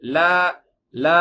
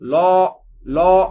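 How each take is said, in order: First: The la sound is light and thin. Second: The la sound is heavy and thickened. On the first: The speaker calls it right. "இது உயர்வான எழுத்து கிடையாது" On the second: The speaker calls it wrong. "ரொம்ப தடிப்பமாக்கி லோ லோ அப்படின்னு சொல்லக்கூடாது"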